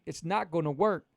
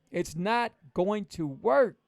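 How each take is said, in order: First: Said in the usual way. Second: It's not going to work, every word spelled out slowly; slow right down and lean on not going to work; slow emphatic repeat. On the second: Shown as a demonstration. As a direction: hammer it home word by word. Coach repeats the warning slower.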